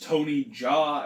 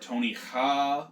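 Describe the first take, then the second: First: The surname begins with a j sound. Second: The surname begins with an h sound. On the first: "I hope it is Tony Jaa" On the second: "or Tony Ha"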